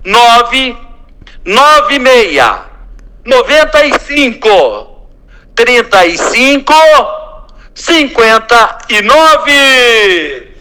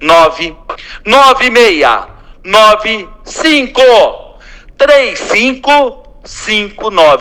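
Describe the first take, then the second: First: The number is said slowly. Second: The number is said at normal speed.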